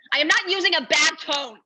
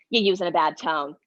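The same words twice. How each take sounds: First: Higher, louder, stress on not; indignant louder denial. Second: Scolding accusation. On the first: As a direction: fire back, leaning hard on not. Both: Retold or imitated.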